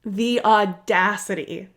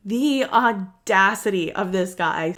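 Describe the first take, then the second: First: "The audacity" drawn out slowly, indignant; slow indignant emphasis. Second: "The audacity of this guy" slow and outraged; slow indignant emphasis. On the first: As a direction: let "The audacity" hang, slow and outraged. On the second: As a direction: lean on "audacity", slowly, with disbelief. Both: Real, not acted.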